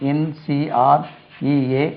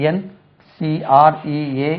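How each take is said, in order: Both takes have the same delivery.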